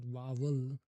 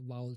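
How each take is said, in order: First: "vowel" with a hard middle v, "va-vel"; wrong "vowel". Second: "vowel" with a gliding middle, no second v; corrected "vowel". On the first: Learner shows what to avoid, mispronounced "vowel". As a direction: put a second v into "vowel". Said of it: "not vowel". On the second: Learner corrects own practice, smooth "vowel". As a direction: let "vowel" glide as "vow-ul". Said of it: "It's like vowel sound". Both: Shown as a demonstration.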